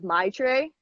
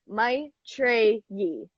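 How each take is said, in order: First: The name is said in a shortened, simplified form. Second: The name is said in its fuller form. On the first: It was easier to say. "I used to say my name as my tray" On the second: The speaker has taken back the real name. "I pronounce it my tray yi"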